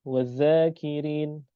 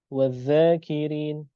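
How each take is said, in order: Both takes have the same delivery.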